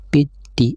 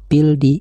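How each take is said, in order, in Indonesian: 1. L menyatu menjadi bunyi D yang bertasydid. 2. Bunyi L terdengar jelas sebelum D. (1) "harus dibaca piti" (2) "tidak boleh dibaca pildi"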